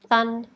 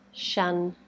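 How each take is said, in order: First: The word begins with a th sound. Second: The word begins with a sh sound. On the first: "make a th sound instead" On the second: "make a sh sound"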